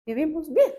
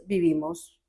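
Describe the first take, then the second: First: Bien lifted much higher with a rising end; stress on bien. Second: Said in the usual way. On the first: Real, not acted. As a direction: lift the word bien up high to make the point.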